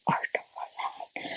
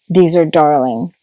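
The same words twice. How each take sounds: First: Slow, fading whisper; hushed, drawn-out whisper. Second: Said in the usual way. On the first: Real, not acted. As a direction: drop into an adoring whisper. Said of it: "I don't know why I'm whispering".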